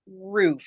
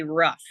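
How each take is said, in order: First: "roof" with a long oo vowel; Canadian pronunciation. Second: "rough" with a short uh vowel; American pronunciation of roof. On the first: Shown as a demonstration. Teacher showing how Canadians say roof, Canadian pronunciation. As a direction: say "roof" to rhyme with "proof". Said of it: "we say roof". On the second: Retold or imitated. Canadian imitating how the States say roof, American pronunciation. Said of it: "In the United States, they say rough".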